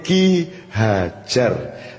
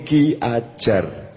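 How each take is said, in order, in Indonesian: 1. Kata kedua diawali bunyi h. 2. Kata kedua diawali vokal, tidak ada h. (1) "Nek dialuske Ki Hajar" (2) "jenenge Ki Ajar"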